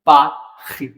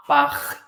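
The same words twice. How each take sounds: First: पाखी with a throaty ख for r; French word. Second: पाख with the r said as a throaty ख; French r as kh. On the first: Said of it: "नहीं तो". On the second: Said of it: "अब आर को ख बोलोगे तो पाख". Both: Shown as a demonstration.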